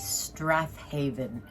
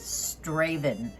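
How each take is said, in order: First: The name is said with all syllables, including 'th'. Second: The name is said short, without the 'th' syllable. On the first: The speaker calls it wrong. "it's spelled what I would say Strathaven" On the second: The speaker calls it right. "the real pronunciation of it is Straven"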